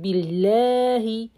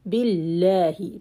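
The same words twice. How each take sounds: First: A vowel in the word is drawn out long. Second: The vowels in the word are kept short. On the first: The speaker calls it wrong. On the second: The speaker calls it right.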